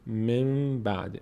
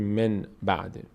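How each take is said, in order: First: The first word ends with an m sound. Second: The first word ends with a clear n sound. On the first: The speaker calls it right. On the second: The speaker calls it wrong.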